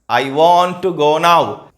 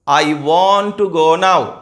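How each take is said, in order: No difference in how they are said.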